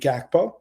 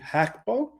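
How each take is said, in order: First: The name starts with a G sound. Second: The name starts with an H sound. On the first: This is the English pronunciation. "with an English um, per, uh, pers- perspective of saying the name, it would be Gakpo" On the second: This is the Dutch pronunciation. "the G G in in Dutch is pronounced with with an as an H"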